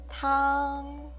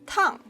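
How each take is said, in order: First: The syllable carries the first tone. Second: The pitch falls through the syllable. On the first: "This is the first tone" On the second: "Tongue is a falling tone"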